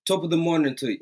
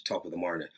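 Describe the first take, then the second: First: Higher-pitched mock Irish greeting; playful Irish accent. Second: Lower, much softer repeat; muttered Irish greeting. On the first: Streamer greeting a viewer, playful Irish accent. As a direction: greet her in a light, put-on Irish lilt. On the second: Pretend. Streamer correcting himself, quiet low Irish-greeting aside. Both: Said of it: "No, that's Irish".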